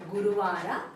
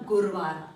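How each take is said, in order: First: The second 'u' vowel is pronounced. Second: The second 'u' vowel is dropped. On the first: This is the written form. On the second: This is the everyday spoken form.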